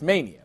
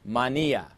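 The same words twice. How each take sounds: First: The word is given its English pronunciation. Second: The word is given its Greek pronunciation. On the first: "but it's mania. We get the word mania" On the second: "That's how you pronounce it in Greek"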